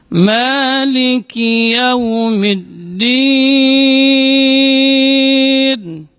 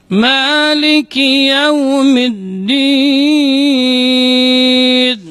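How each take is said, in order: Both takes have the same delivery.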